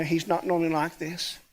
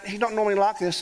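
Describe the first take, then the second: First: Softer and lower, wry echo ending in a rise; dry ironic echo. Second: Said in the usual way. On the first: Retold or imitated. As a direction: echo his words with a knowing irony. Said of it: "Uh, yeah, I know". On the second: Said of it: "I want to apologise for my mate".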